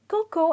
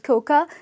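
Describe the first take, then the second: First: The second syllable ends in an 'oh' sound. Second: The second syllable ends in an 'ah' sound. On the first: The speaker calls it right. "the pronunciation is cocoa and the A is silent" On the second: The speaker calls it wrong. "never call it coca"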